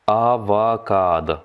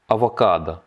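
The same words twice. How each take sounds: First: "Avocado" drawn out as "a-va-kaad"; slowed-down model. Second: Said in the usual way. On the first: Shown as a demonstration. Teacher breaks down the Russian for avocado, very slow. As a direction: stretch "Avocado" slowly into long syllables, ending "kad".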